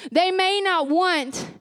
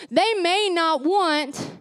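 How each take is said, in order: Both takes have the same delivery.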